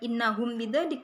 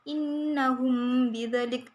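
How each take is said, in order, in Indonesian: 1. Huruf m ditutup dengan jelas sebelum b. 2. Huruf m disamarkan dengan dengung sengau. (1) "bukan innahum bidzalik ya" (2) "tetapi dibaca innahum bidzalik"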